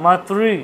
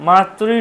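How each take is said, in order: No difference in how they are said.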